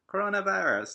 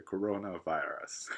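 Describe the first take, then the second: First: Said in the usual way. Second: コロナバイラス slow and low-key, half whispered; drawn-out, hushed English コロナバイラス; posed いい声 pronunciation. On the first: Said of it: "とかじゃなくて". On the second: Shown as a demonstration. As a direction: say コロナバイラス like a suave English voice-over. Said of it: "ちょっと決めて書かなきゃいけないのかな".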